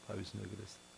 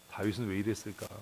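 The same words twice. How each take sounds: First: Much softer, almost to himself; soft echo. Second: Said in the usual way. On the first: Real, not acted. Preacher repeating the question to congregation, hushed and reflective. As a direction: let the question fall away quietly. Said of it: "repeats the question softly". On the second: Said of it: "asks the question".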